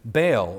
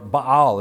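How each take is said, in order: First: The name is said in the usual English way. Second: The name is said in the Hebrew way.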